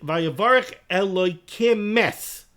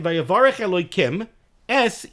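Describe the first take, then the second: First: The final m of Elokim runs into es. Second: A pause separates Elokim from es. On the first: The speaker calls it wrong. "connecting the Mem with the S" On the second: The speaker calls it right. "you put a pause between Elokim and Es"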